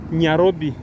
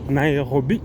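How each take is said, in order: First: The name begins with the sound 'nya'. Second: The name begins with the sound 'nai'.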